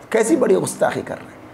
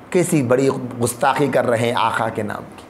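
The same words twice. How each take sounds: First: Fast indignant repeat. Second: Said in the usual way. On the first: Acted. Preacher repeats the outrage.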